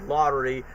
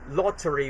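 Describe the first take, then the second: First: It is said with an American accent. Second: It is said with a British accent.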